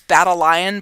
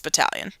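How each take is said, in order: First: It sounds like the two words battle lion. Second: It sounds like the single word battalion. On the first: The speaker calls it wrong. "I'm supposed to tell you it's Battle Lion" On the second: The speaker calls it right. "but it's not. It's Battalion"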